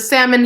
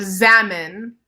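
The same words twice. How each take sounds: First: The word begins with an S sound. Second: The word begins with a Z sound. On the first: This is the ordinary fish name. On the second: This is the local dream-realm name.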